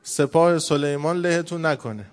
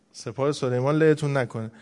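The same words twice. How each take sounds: First: Drawn-out, mildly raised warning call; a slow, half-hearted cry of warning; mock shout. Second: Said in the usual way. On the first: Ant warning the others of Solomon's army, mock shout.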